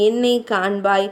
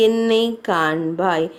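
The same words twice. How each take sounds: First: Said in the usual way. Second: Broken plea. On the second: Acted. Aja pleading with his dead wife to look at him, low and slow. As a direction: lower and slow, என்னை drawn out, fading. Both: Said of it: "மனமுடைந்தவனாய் புலம்ப ஆரம்பித்தான்".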